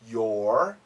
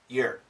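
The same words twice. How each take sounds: First: The vowel is full and clearly pronounced. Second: The vowel is reduced and weak. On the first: "perfect pronunciation" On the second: "Natural pronunciation"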